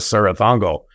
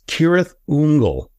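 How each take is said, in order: First: The name gets an Americanized pronunciation. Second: The name gets its original, non-American pronunciation. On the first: "we've definitely Americanized that" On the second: "the correct pronunciation"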